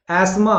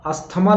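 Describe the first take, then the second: First: एस्मा as 'as-maa', no 'th'; higher एस्मा with long final 'aa'; correct pronunciation. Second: अस्थमा with 'tha' sounded; three syllables, 'as-tha-maa', in अस्थमा; wrong pronunciation. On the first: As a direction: announce 'as-maa' clearly. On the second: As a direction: mistaken अस्थमा, pitched up. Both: Shown as a demonstration. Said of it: "अस्थमा नहीं होता".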